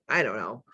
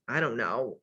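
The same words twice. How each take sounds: First: Said in the usual way. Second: Lower, mumbling mock voice; low mock shrug.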